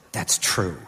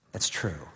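First: Said in the usual way. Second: Soft whispered affirmation; hushed private assurance. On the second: Retold or imitated. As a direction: whisper it to yourself as a quiet truth. Man rehearsing God's promises.

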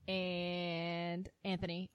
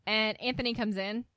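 First: Slow, drawn-out "Anthony"; stress on Anthony. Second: Said in the usual way. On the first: Shown as a demonstration. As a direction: stretch out "Anthony". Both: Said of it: "all caps".

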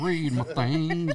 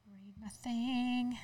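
First: Slow, drawn-out, laughing; slow laughing echo. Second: Slow, drawn-out mock repeat; slow mocking echo. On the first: Pretend. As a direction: drag it out while laughing. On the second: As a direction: drag the words out mockingly. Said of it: "Read your thing".

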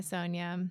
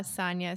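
First: Sonia as SOHN-ya; Sonia, first vowel as in "so". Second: Sonia as SAHN-ya; Sonia, "ah" as in "father". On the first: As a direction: say Sonia with a long "oh". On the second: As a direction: say Sonia with an open first vowel. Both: Shown as a demonstration. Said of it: "is it Sonia or Sonia?".

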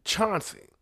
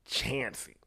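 First: CHAUNCEY said with an open "ah", as spelled; standard pronunciation. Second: CHANCEY with the short a of "chance"; local pronunciation. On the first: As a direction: say "Chauncey" as CHAHN-see. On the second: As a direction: say "Chancey" as CHAN-see. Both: Shown as a demonstration. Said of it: "these motherfuckers call it".

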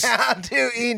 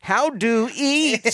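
First: High alien voice echoing. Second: High, very slow alien question. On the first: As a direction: echo the alien's clueless question. Other host echoes the alien line. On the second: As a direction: play a baffled alien learning to eat. Imitating alien's broken speech. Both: Retold or imitated.

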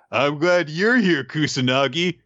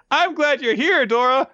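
First: Moderately high voice leaning on YOU'RE; answering second character. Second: Very high, earnest mock voice; hammed-up high sentimental call; gushing first character. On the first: Retold or imitated. Dora answers Kusanagi in kind, mock sentimental reply. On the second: Kusanagi tells Dora he is glad, high and gushing. Two characters trade same line.

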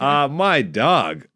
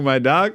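First: Slow, stretched-out "my dog"; slow drawn-out mock slang. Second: Said in the usual way. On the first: Shown as a demonstration. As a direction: drag out "my dog" like it's not yours. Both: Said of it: "that's not me".

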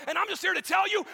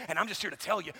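First: Higher and louder, full shout; shouted preaching. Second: Said in the usual way. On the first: Acted. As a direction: shout it to the congregation. Repeated line, shouted take.

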